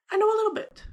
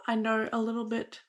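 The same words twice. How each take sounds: First: "a" hit much higher and louder; stress on a. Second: Said in the usual way. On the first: Shown as a demonstration. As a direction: punch the word "a" up high in "I know a little bit.".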